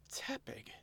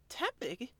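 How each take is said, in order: First: Breathless high whisper of the name; stunned whisper. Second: Confused question. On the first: Oshawott realizing the girl is a Tepig, shocked whisper. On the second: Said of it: "Elaine asked". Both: Acted.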